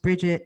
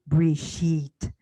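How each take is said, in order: First: The stress is on the first syllable. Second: The stress is on the second syllable.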